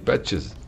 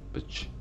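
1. Le nom se termine par une syllabe en plus. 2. Le nom se termine sans syllabe finale. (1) "Très important de prononcer ES" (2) "Ça fait un peu patch"

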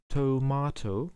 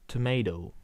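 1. Es wird mit einem britischen Akzent ausgesprochen. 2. Es wird mit einem amerikanischen Akzent ausgesprochen. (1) "in Großbritannien sagt man zur Tomate Tomato" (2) "in Amerika sagt man Tomato"

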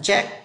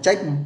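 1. Nó được phát âm theo kiểu tiếng Anh. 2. Nó được phát âm theo kiểu tiếng Việt. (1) "Tiếng Anh phiên âm của nó là check" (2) "Vì tiếng Việt hay đọc là check"

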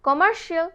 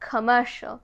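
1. শেষের অংশটি দুই ভাগে বলা হয়, shee-al। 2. শেষের অংশটি এক ভাগে বলা হয়, shal। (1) "আমরা বলি commercial" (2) "but it's actually commercial"

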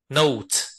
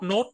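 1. Nguyên âm này trượt từ uh về phía oo. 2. Nguyên âm này là một âm o đơn thuần. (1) "thực ra phát âm nó là âm ơ u" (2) "nhiều người đọc là nốt"

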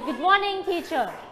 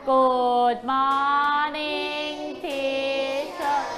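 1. แต่ละคำสั้นและกระชับ 2. แต่ละคำลากเสียงยาวและช้า (1) "กระชับเสียงสั้นๆ" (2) "ลากเสียงยาวครูกุ้งก็จะไปนอนแล้ว"

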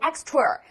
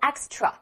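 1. 最后一个元音带有卷舌音。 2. 最后一个元音没有卷舌音。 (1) "很多人喜欢读extra，no，" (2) "没有这个儿化音，读作extra"

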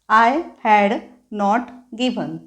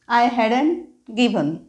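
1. Had आणि not हे दोन पूर्ण शब्द म्हटले जातात. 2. Had आणि not एकत्र होऊन एक शब्द होतो, hadn't.

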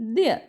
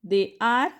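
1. दोन्ही शब्द एकाच अक्षरात एकत्र मिसळले जातात. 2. दोन्ही शब्द पूर्णपणे आणि वेगवेगळे म्हटले जातात.

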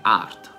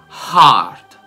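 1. La h non butta fuori aria. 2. La h butta fuori aria. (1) "Il cuore non è heart" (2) "è heart"

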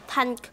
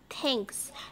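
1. Từ này kết thúc không có âm s. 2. Từ này kết thúc bằng âm s. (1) "hoặc là thank cũng sai luôn" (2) "Người ta là thanks"

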